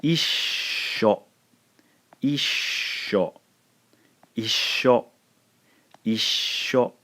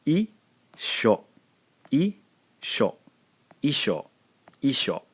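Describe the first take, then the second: First: "Isho" as issho, hovering on a long shhh; "Isho" with a drawn-out continuous sh in the middle; long S sound. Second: "Isho" as i, then sho, with no held sh; plain "Isho", the sh not lengthened; short-sh isho. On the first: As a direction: hold the sh in "Isho" an extra beat before the o. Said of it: "hear the long sound for the S". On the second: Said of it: "pronounce it here". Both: Shown as a demonstration.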